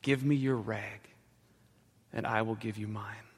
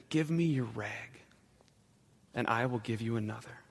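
First: Soft, gentle offer, fading at the end; tender and quiet, like comforting a child; gently. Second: Gently. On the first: Ragman to bleeding little girl, soft and gentle. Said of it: "he said gently". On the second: Ragman to sobbing woman, gentle and soft. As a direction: hand it over tenderly, barely above a murmur. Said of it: "And he said gently". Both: Acted.

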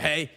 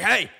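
First: Said in the usual way. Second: Raised, loud call-out; mock yell to get attention; retold yell. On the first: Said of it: "And I'm like". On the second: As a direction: imitate calling over from the smoker. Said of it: "he yells from the smoker".

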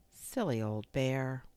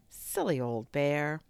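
First: Loving. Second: Slow, fond teasing; loving. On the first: Christopher Robin watching Pooh walk off, loving. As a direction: murmur it fondly, unhurried. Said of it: "looked after him lovingly". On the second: Christopher Robin on finding Pooh stuck, loving. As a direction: say it lovingly, drawn out. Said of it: "in such a loving voice". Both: A narrator's reading.

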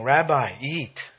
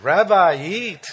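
First: Said in the usual way. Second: High, loud mock Jewish accent; hammed-up Jewish accent, pitched up. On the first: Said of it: "hear that Jewish accent". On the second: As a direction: put on an emphatic Jewish accent. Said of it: "you can hear that Jewish accent".

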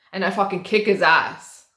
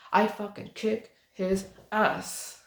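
First: Said in the usual way. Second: Softer and slower, savoring "fucking kick his ass"; slow, savoring boast. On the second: Real, not acted. Bragging to viewers about beating the rude guy, slow and relished.

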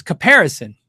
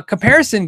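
First: Caparison, said with no m, ka-PAIR-ison; the right way, caparison with no m after the ka; corrected brand name; correct pronunciation. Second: Comparison, said the wrong way with an m; the common mispronunciation comparison with the m sound; mispronounced brand name; wrong pronunciation. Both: Shown as a demonstration. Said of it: "It's pronounced caparison".

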